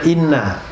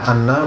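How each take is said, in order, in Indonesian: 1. Kata ini dimulai dengan vokal 'i' depan. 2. Kata ini dimulai dengan vokal 'a' terbuka. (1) "boleh baca inna istinaf" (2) "boleh baca anna fathah"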